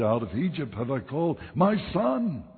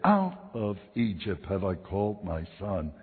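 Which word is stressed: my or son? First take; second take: my; son. First: The stress falls on the word my. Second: The stress falls on the word son. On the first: The speaker calls it right. "I should have said" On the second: The speaker calls it wrong. "I put my emphasis on the wrong syllable"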